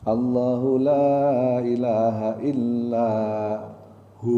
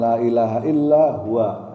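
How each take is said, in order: First: The phrase ends with a long drawn-out hu. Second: The phrase ends with the full syllables hu-wa. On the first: The speaker calls it right. "Hu-nya panjang" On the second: The speaker calls it wrong. "Jadi bukan la ilaha illa huwa. Nah, itu salah"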